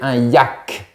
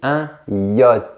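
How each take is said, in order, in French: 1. Le mot se termine par un son k. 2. Le mot se termine sans son k. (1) "à l'époque, on disait un yak" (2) "Attention à la partie finale. On dit un yacht"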